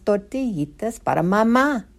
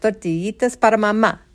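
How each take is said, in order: First: The rhyme is recited at a normal pace. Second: The rhyme is recited at a quicker pace.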